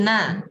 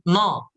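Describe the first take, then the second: First: The syllable sounds thin, like na. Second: The syllable sounds thick, like no. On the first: The speaker calls it right. "Tapi na" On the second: The speaker calls it wrong. "nunnya jangan no"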